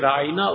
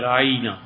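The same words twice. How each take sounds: First: The word is said with its plain, short vowels. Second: The word is stretched with an added 'ya' sound. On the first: Please be considerate of us. "یہودی یہی لفظ بولتے تھے" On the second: O our shepherd, an insult. "اسے ذرا سا بڑھاتے، ... یا کا ذرا سا اضافہ"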